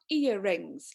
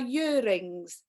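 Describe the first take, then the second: First: The word starts directly with a vowel sound. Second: The word starts with a y sound. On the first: "not earrings" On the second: "for me they are years, and they are earrings"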